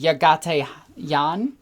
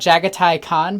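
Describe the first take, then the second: First: The name begins with a Y sound. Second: The name begins with a J sound. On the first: This is closer to the real name. The speaker calls it right. "his actual name would be" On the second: This is the game company's version of the name. The speaker calls it wrong. "G W pronounces it"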